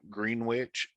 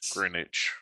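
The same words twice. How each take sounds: First: The W sound in the middle is pronounced. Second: The W sound in the middle is silent. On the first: The speaker calls it wrong. "you don't pronounce the W in" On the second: The speaker calls it right. "it's Greenwich"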